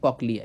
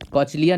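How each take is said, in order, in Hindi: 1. बीच का व्यंजन 'k' ध्वनि है। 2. बीच का व्यंजन 'ch' ध्वनि है। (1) "कॉकलिया है" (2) "कॉचलिया नहीं है"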